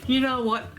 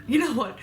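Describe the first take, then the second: First: A giggle running under it; laughing. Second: Said in the usual way. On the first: Real, not acted. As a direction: still laughing through the words. Laughing at a viewer's joke.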